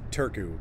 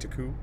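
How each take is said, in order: First: The R sound is pronounced in the word. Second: The R sound is dropped from the word. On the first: The speaker calls it wrong. "I thought it was" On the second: The speaker calls it right. "I don't think they pronounce the R's"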